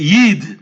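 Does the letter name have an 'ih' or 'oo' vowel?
ih. The vowel is an 'ih' sound. "they pronounce it as Yid"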